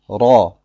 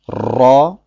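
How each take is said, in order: First: The r is made with one single tongue tap. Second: The r is trilled with several tongue taps. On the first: The speaker calls it right. "sondern Ra" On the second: The speaker calls it wrong. "Es heißt also nicht Ra"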